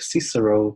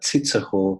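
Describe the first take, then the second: First: The name is said with English pronunciation. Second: The name is said with German pronunciation. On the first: "in English it's like" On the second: "in German it's like"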